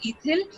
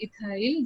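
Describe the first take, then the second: First: Ethyl said "i-THIL", short final i; ethyl as ITH-ill. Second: Ethyl said "i-THAIL", long final i; ethyl as i-THILE. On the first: Teacher offers students one pronunciation, ethyl as "i-thill". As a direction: end ethyl to rhyme with "hill". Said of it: "some call it as ethyl". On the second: Teacher offers students the other pronunciation, ethyl as "i-thile". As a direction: end ethyl to rhyme with "mile". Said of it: "जो तुम्हें अच्छा लगे". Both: Shown as a demonstration.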